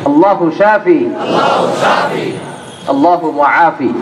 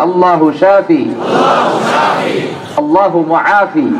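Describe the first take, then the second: The two takes are said the same way.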